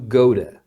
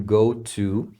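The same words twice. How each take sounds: First: The two words are run together into one. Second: The two words are said separately and clearly.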